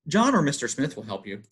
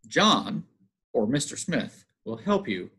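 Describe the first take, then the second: First: The phrase runs on without any pauses. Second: Short pauses set off 'or Mister Smith'. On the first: There are two different people to choose from. "we have no commas" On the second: One person is known by two names.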